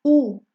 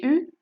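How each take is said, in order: First: أو as a pure back "oo", louder and held; Spanish U. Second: أو as a fronted French "ü"; wrong French U. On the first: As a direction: round أو into a firm Spanish "oo". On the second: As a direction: say أو with rounded lips and tongue forward, as in French "tu". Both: Shown as a demonstration. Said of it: "ماشي أو".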